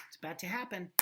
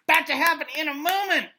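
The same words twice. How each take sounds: First: Said in the usual way. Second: Much higher, louder, fast repeat; excited urgency. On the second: Shown as a demonstration. Teacher urges class that the violence is imminent, loud. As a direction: make it feel imminent, building urgency.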